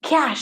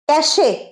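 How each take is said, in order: First: It is said with one syllable, ending in -sh. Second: It is said with two syllables, ending in -ay. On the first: The speaker calls it right. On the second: The speaker calls it wrong.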